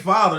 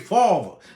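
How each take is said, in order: First: Father is said with a standard accent. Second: Father is said with a New York accent. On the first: "They don't say father" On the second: "Like New York girls say father"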